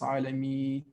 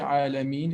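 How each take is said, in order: First: The final n sound is dropped. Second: The final n sound is clearly pronounced. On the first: The speaker calls it wrong. "If we don't say Alameen, it's Alami" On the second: The speaker calls it right. "we say Alhamdulillahi Rabbil Alameen"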